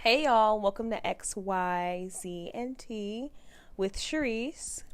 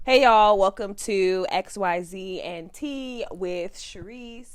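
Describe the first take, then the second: First: Slow, soft podcast intro; mellow. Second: Punched greeting, then slow welcome; podcast intro. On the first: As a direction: ease gently into a mellow welcome. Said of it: "It's so, like, mellow". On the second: Second take of the podcast intro. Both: Shown as a demonstration.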